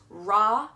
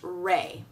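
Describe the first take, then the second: First: The vowel is an open 'ah' sound. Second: The vowel is a gliding 'ay' sound. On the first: "it can be pronounced Ra" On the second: "It can be also pronounced Ray"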